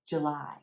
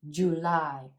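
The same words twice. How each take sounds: First: The first syllable is reduced to a schwa. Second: The first syllable has a full vowel. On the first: "the first syllable is really short and it's reduced. It's a schwa" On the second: "instead of"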